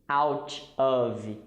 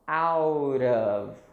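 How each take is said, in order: First: The two words are said separately. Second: The two words are linked together. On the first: The speaker calls it wrong. "We don't say out of, no" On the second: The speaker calls it right. "it sounds like out of"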